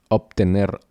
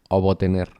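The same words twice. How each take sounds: No difference in how they are said.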